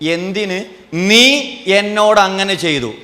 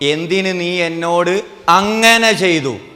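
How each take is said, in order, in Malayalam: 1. ഊന്നൽ വീഴുന്നത് നീ എന്ന വാക്കിലാണ്. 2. ഊന്നൽ വീഴുന്നത് ചെയ്തു എന്ന വാക്കിലാണ്. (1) "നീ ചെയ്ത പ്രശ്നം" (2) "ആ ചെയ്തതാ പ്രശ്നം"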